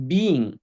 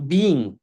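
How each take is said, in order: Both takes have the same delivery.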